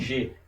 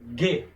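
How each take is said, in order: First: The consonant is a soft zh sound. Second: The consonant is a hard g sound. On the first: The speaker calls it wrong. "Não G" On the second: The speaker calls it right.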